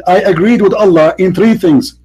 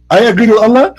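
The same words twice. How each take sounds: First: Said in the usual way. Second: Higher, rising disbelieving question; amused disbelief, pitched up; incredulous echo. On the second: Real, not acted. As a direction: repeat it back as a scoffing question. Questions the quote, then laughs.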